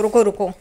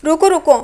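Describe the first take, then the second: First: Said in the usual way. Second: Higher, louder hurried "रुको, रुको" calling out to stop him; urgent wait. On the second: Acted. Eager man stopping the gym-goer, calls out wait. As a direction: call "रुको, रुको" out high and loud, eager.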